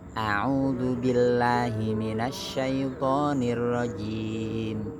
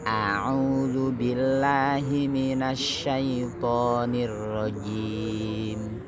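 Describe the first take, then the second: First: It is recited at a fairly fast pace. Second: It is recited at a moderate pace. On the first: "Ada lagi lebih cepat lagi, namanya tadwir" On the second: "kalau tartil lebih cepat"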